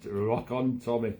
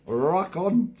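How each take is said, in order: First: Said in the usual way. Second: Higher, louder shouted catchphrase; Bobby Ball catchphrase. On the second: Retold or imitated. Host doing his comic's catchphrase for viewers, loud and high. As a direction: belt it out like a seventies comic. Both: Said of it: "with his catchphrase".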